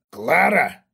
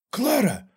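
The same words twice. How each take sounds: First: Louder, drawn-out repeat of the name; questioning echo. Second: High-pitched, falling cry of her name; shocked exclamation. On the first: Intruder turns to the daughter, questioning echo. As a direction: echo the name with sudden interest. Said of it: "переспросил Кшиштоф". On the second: Father suddenly spots his daughter, shocked exclamation. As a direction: blurt the name in alarm. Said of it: "произнёс отец, выпучив на меня глаза". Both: A narrator's reading.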